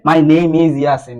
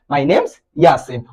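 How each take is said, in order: First: Name and is are said as separate words. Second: Name and is are joined into one syllable. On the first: The speaker calls it wrong. "You shouldn't say" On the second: The speaker calls it right. "You should say"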